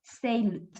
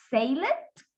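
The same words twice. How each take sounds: First: "sailed" as one syllable closing on D; D-only ending. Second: "sail it" with an extra -ed syllable, rising; wrong added syllable. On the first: Teacher applies the same rule, single-syllable ending. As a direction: run the L straight into D in "sailed". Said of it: "Lo mismo". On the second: Teacher shows what we cannot say, tacking a syllable on sailed. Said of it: "no podemos decir". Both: Shown as a demonstration.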